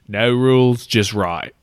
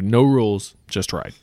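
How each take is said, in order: First: It is said in a put-on Australian accent. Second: It is said in the speaker's ordinary accent.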